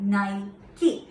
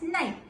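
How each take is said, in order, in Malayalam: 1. ഈ വാക്ക് 'ee' ശബ്ദത്തോടെയാണ് അവസാനിക്കുന്നത്. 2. ഈ വാക്ക് 'ee' ശബ്ദമില്ലാതെയാണ് അവസാനിക്കുന്നത്. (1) "every goddess name would be ending with E" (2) "British people used to say it as Nike"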